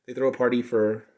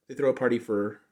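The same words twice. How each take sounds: The two takes are said the same way.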